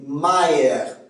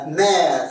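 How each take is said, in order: First: "mère" as ma-ère; Québécois diphthong. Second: Said in the usual way. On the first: Shown as a demonstration. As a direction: split the vowel of "mère" into a gliding ah-eh. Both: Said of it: "c'est A E en accent québécois".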